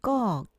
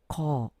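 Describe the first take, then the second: First: The first consonant is tense and tight. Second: The first consonant is plain and relaxed. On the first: This is how it is pronounced. "이렇게 경음으로 발음하더라도" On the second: This is how it is written. "평음으로 써야 한다는 거"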